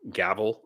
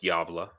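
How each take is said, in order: First: The word begins with a hard G sound. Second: The word begins with a Y sound. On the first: The speaker calls it wrong. "some people say probably gavel or something" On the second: The speaker calls it right. "it's pronounced Javla because the G is y in Swedish"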